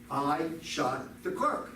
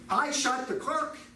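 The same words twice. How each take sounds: First: It is said flatly, as a plain confession. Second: It is said in astonishment, like a question.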